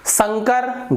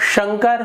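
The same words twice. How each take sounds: First: It begins with a hissing 's' sound. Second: It begins with a hushing 'sh' sound. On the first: The speaker calls it wrong. "गलत है" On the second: The speaker calls it right. "सही है"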